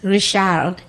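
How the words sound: The name is said in a French accent. "Goes to France"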